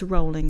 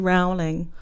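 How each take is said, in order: First: The name rhymes with bowling. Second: The name does not rhyme with bowling. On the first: The speaker calls it right. "It's rolling. Rhymes with bowling" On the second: The speaker calls it wrong. "A lot of people say rowling"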